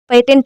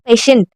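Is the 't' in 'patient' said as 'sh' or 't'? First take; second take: t; sh. First: The 't' is a plain 't' sound. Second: The 't' is an 'sh' sound. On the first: The speaker calls it wrong. "यहाँ पर पेटेंट नहीं है" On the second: The speaker calls it right. "यहाँ पे क्या है?"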